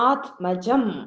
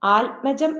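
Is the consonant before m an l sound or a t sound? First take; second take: t sound; l sound. First: A t sound comes before the m. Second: An l sound comes before the m. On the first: The speaker calls it right. "പകരം ത്" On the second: The speaker calls it wrong. "ആത്മജം എന്ന് പറയരുത്, ഇൽ പറയരുത്"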